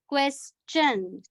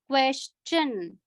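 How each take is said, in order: First: The middle has an 's' sound. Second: The middle has an 'sh' sound. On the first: "in first pronunciation, we had the sound of sir" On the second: "in the second one, it was question, sure"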